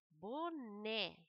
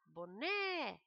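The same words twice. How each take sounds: First: Said in the usual way. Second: Boné called out with the final syllable né stressed; boné, like calling someone by name; calling out the word. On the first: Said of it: "Jacarandá". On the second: Shown as a demonstration. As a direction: call out boné as if summoning it, landing on né. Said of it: "fazer o teste chamando a palavra".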